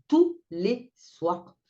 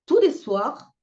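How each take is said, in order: First: Tous les soirs drawn out very slowly; tous les soirs étiré. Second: Higher and louder on tous les soirs; tous les soirs emphatique. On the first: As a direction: stretch each word of tous les soirs. (tous les soirs très lent, appuyé) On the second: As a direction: hit tous hard. (tous les soirs appuyé, plus haut et plus fort) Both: Real, not acted. Récit indigné des cris.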